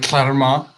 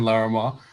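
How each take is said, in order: First: The name begins with a cl-like sound. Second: The name begins with a plain L sound. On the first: "I was reading it with a Welsh L the whole time" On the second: "Everybody's saying Larimar"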